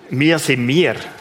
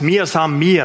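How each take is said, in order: First: It is said in a Swiss German dialect. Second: It is said in a Bavarian dialect.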